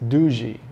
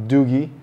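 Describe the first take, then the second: First: The g is a soft j sound. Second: The g is a hard g sound. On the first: The speaker calls it right. "it's Doogee. A silent G just like in giraffe" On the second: The speaker calls it wrong. "it's not Doogee"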